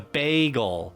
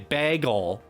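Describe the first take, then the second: First: The first vowel sounds like in 'bay'. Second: The first vowel sounds like in 'bag'. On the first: This is how most other people say it. "ba like bay, like hey bay" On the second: This is the speaker's own habitual way. "I say bag, like a bag"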